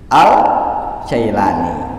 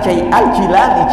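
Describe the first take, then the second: First: The first vowel sounds like 'eye'. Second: The first vowel sounds like 'ee'. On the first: This is how local speakers commonly say it. The speaker calls it wrong. "orang Indonesia susah mau jadi Al-Jailani" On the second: This is the name's original form. The speaker calls it right. "Padahal namanya Al-Jilani"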